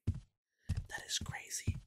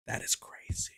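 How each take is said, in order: First: Slow, fully whispered. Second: Softer, breathless; quiet. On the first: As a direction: whisper it slowly. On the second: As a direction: say it under your breath. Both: Real, not acted. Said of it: "repeated whisper".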